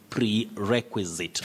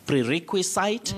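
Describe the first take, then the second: First: The ending sounds like zit. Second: The ending sounds like site. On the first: The speaker calls it right. "No, you say prerequisite" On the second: The speaker calls it wrong. "you don't say prerequisite"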